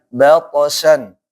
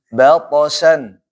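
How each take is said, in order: No difference in how they are said.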